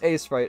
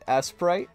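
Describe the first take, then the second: First: The first syllable sounds like the letter 'A'. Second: The first syllable sounds like the word 'ass'. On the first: The speaker calls it right. "No, it's A-Sprite" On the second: The speaker calls it wrong. "It sounds like I'm saying ass sprite"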